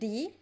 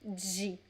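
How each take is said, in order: First: It starts with a plain d and an 'ee' vowel. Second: It starts with a 'j' sound and an 'ee' vowel. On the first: This is another regional variant. "some people would say di" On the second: This is the most common pronunciation. "the most common pronunciation is G"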